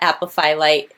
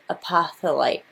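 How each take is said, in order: First: The middle of the word sounds like 'fill'. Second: The middle of the word sounds like 'thol'. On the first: The speaker calls it wrong. "it's not apophyllite" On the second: The speaker calls it right. "It's pronounced apoth apotholite"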